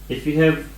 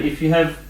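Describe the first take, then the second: Both takes have the same delivery.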